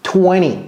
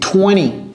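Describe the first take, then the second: No difference in how they are said.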